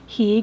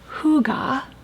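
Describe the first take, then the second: First: It is said as the English spelling suggests. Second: It is said with the native Danish pronunciation. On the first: "it looks like Hygge" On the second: "The Danish word hygge"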